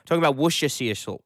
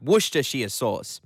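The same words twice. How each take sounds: First: Worcestershire rushed and mumbled as wuh-shuh-see; Worcestershire blurred into a quick slurred wush-uh-see; Worcestershire tripped over, garbled and hurried; slip of the tongue. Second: Worcestershire said deliberately as WUSS-tuh-sheer; Worcestershire carefully as wuss-tuh-shear; Worcestershire spelled out in sound, wuss-ter-sheer; careful correction. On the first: Real, not acted. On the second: Shown as a demonstration. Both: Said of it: "Already fell into the trap".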